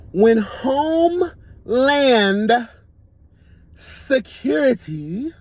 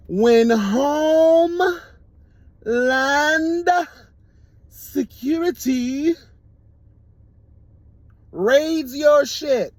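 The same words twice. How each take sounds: First: When Homeland Security drawn out high and loud; dramatic drawn-out announcement; slow emphatic build-up. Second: "When Homeland Security raids your shit" very slow, high and loud; slow emphatic repeat. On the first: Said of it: "I'm gonna say it again for the girls in the back". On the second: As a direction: say it again for the deaf girls in the back, each word stretched. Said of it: "I'm gonna say it again for the girls in the back who may be deaf". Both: Acted.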